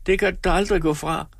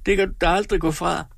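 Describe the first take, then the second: First: Higher, tearful accusation repeated; a hint of weeping woman; crying. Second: Higher, tearful accusation; a hint of weeping woman; crying. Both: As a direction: insist through mock tears. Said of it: "nu græd Tripstine".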